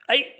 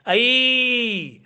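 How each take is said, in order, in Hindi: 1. अंतिम स्वर छोटा और झटके वाला है। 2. अंतिम स्वर लंबा खींचा हुआ है। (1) "आई आई अशी हाक मारत नाही आपण" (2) "शेवटचा स्वर हा दीर्घ केला जातो"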